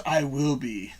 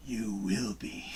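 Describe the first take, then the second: First: Said in the usual way. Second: Low, slow Yoda voice. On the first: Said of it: "Amanda says". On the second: Retold or imitated. Reading a viewer's comment back in a slow Yoda voice. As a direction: croak it out slowly like Yoda. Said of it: "Did you say that like Yoda?".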